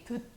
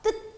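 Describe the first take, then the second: First: The first consonant is plain, not tense. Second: The first consonant is tense. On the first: The speaker calls it wrong. "듣 이렇게 읽나요? 아니죠?" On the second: The speaker calls it right. "뜻 이렇게 읽죠. 쌍자음으로 읽는단 말이에요"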